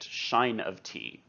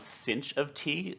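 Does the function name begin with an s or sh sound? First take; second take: sh; s. First: The name begins with an sh sound. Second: The name begins with a plain s sound. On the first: This is how some other people say it. "others may pronounce it" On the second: This is the speaker's own preferred pronunciation. "I pronounce this one"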